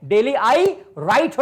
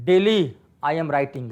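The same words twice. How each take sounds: First: Slow, emphatic correct sentence; 1 slow correct version. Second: Said in the usual way. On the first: Shown as a demonstration. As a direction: stretch out the right version. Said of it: "होगा". (धीमा, ज़ोर देकर सही वाक्य) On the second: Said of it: "गलत है भाई".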